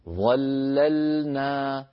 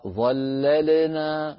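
First: The l sound is held firmly without a bounce. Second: The l sound has a small bounce after it. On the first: The speaker calls it right. "هذا الصواب" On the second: The speaker calls it wrong. "الخطأ ظللنا لل"

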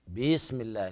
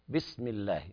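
First: The i vowel after b is lengthened. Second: The i vowel after b stays short. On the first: The speaker calls it wrong. "لا تقول بسم الله بسم الله، فهنا أشبعت الكسرة فتولد منها ياء" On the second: The speaker calls it right. "والصواب بسم الله مباشرة بدون مد"

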